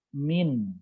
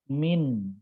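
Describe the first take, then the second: First: The n sound is pronounced clearly. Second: The n sound is pronounced clearly.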